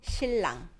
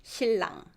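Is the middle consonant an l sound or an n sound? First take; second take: l sound; l sound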